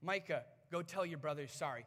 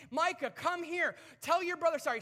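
First: Said in the usual way. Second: Higher, loud scolding call; exasperated dad. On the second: Retold or imitated. Fed-up dad ordering Micah to apologize, exasperated. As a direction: bark the order at a misbehaving kid.

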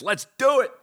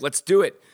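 First: Much higher, excited hype; much higher hype shout. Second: Excited hype. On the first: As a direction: really pump it up, much higher. Hyping the show start, bigger. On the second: Hyping the show start. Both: Acted.

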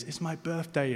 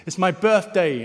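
First: High, soft echo of a call; hushed, high-pitched mountain echo; returning echo. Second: High, loud call to the moon; storybook bear announcing, raised voice. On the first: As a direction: echo it back softly from far away. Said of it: "the voice comes back round through the mountains". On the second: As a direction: call it out proudly from a mountaintop. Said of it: "stands up on the mountain and he says". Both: Acted.

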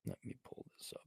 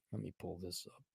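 First: Barely voiced whisper. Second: Softly mumbled to himself; quiet mutter. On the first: Searching his phone, whispering to himself. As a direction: breathe it out as a whisper. Repeats it breathlessly. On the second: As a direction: mutter it under his breath. Muttering while searching phone. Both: Real, not acted.

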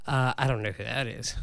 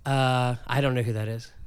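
Both takes have the same delivery.

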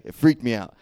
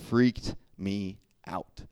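First: Suddenly loud, higher exclamation; loud emphatic. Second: Slow, drawn out. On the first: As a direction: burst out with it. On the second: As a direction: stretch it slowly, spooked. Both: Real, not acted. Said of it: "That last part".

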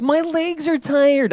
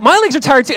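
First: Put-on slow, much higher little-girl whine; high, drawn-out mock toddler complaint; three-year-old daughter. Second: Higher, louder whiny complaint; hammed-up dad whining back; mock whine. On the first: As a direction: imitate your toddler's tired whine. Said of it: "in her voice". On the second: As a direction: play along with a hammed-up grown-up whine. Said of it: "and I'm like".

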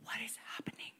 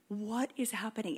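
First: Whispering Habakkuk's question; whispered. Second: Said in the usual way. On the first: Retold or imitated. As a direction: hush it, bewildered. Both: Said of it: "Habakkuk is like".

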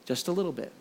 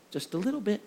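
First: Dawning realization. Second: Much softer, calm and pointed; soft deliberate mother's reply; quiet knowing mom. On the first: Son realizes the lesson. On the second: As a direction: let the lesson land softly. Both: Retold or imitated.

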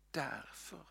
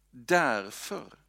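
First: Soft breathy whisper, rising at the end. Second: Louder, ringing out with a rise; proclaimed. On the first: Preacher whispers the answer to the congregation. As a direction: hush it like a secret answer. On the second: Preacher proclaims the answer aloud to the congregation. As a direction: declare it boldly to the room. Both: Shown as a demonstration.

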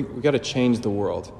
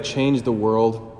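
First: Said in the usual way. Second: Change the world, drawn out slowly as a quoted slogan; quoted catchphrase. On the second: Shown as a demonstration. Priest holds up a familiar slogan, slow and deliberate. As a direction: slowly set off "change the world" as a well-worn phrase. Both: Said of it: "you ever heard the phrase".

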